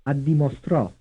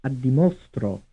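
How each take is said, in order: First: "Addimostrò" with the beat on STRÒ; final-syllable stress. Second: "Addimostro" with the beat on MO; third-syllable stress. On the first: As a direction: land hard on the last syllable of "Addimostrò". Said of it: "stressed on the fourth syllable". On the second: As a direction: hit "mo" in "Addimostro", keep the ending light. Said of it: "stressed on the third syllable". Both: Shown as a demonstration.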